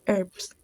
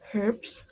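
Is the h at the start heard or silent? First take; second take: silent; heard. First: The word begins without an h sound. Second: The word begins with an audible h. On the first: "while American accent usually says" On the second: "usually the H it's audible"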